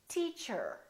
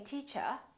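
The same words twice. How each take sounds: First: The final R is pronounced, in an American accent. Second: The final R is dropped, in a British accent. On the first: "Americans say teacher" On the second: "So they say teacher"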